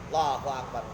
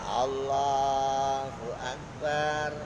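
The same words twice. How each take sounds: First: It is said fast and hurriedly. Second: It is said slowly and calmly. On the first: The prayer is rushed as if chasing something. The speaker calls it wrong. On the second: The prayer is done with composure. The speaker calls it right. "rukuk kalem"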